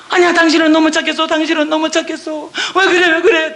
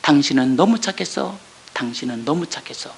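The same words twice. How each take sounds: First: Alarmed reassurance. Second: Soft, low, gentle reassurance; tender reassurance. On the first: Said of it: "우리 남편이 나한테 뭐라고 그랬어요". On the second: Husband quietly comforting his wife, soft tender reassurance. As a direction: say it softly and tenderly. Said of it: "남편 입이 뭐라고 증거해". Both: Retold or imitated.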